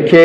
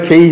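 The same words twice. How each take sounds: First: "খে" with one plain vowel, no glide; wrong K pronunciation. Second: "খেই" with a full ei glide; correct K pronunciation. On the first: Teacher showing the mistake, "খে" without the final glide. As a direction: cut "খে" off before any i-glide. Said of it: "তাহলে খে হবে না". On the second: Teacher correcting the class, "খেই" with aspirated k and glide. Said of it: "খেই হবে". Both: Shown as a demonstration.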